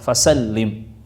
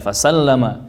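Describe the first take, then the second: First: The vowel after the double L is i. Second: The vowel after the double L is a. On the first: The speaker calls it right. "maka dibaca kasrah" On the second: The speaker calls it wrong. "maka itu fathah, dibaca a"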